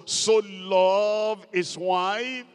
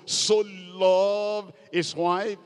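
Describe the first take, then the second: First: "So" stretched and punched, whole line slow; preacher drilling the word "So" into the church, slow, loud; stress on so. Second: So drawn out slowly, leaning on "So"; slow and loud, hammer the word "So"; preacher underlining "So" for the church, slow and emphatic; stress on so. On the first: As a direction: slowly lean hard on "So". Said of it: "Look at that word, so". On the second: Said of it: "Underline that word, so". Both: Shown as a demonstration.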